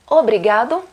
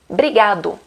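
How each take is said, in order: First: The word starts with an 'o' vowel sound. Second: The word starts directly with the 'br' sound. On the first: "Em vez de falar obrigado" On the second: "sem a primeira letra, sem o O"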